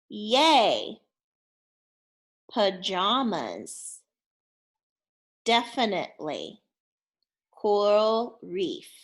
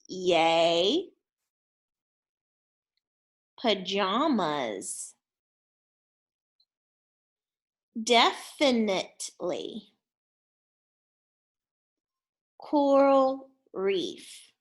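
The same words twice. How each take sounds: First: The words are said a little quicker. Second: The words are said at a normal pace.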